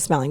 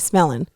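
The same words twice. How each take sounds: First: The word ends with a clear 'ng' sound. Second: The word ends in 'in' without 'g'. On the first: The speaker calls it wrong. "Smelling with a G? ... We don't say smelling" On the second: The speaker calls it right. "We say smelling. ... S M E L L I N"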